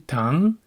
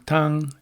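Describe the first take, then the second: First: The pitch of the word rises. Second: The pitch of the word does not rise. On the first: It means sugar. "to tang" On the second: It means soup. "changing the melody of the last word from tang"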